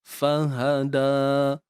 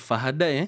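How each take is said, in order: First: The word ends in a long 'a' vowel. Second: The word ends in an 'ai' sound. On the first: The speaker calls it right. "da juga dibaca uh, dengan baris atas dan dua harakat sahaja" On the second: The speaker calls it wrong. "Kita tak akan baca fahadai"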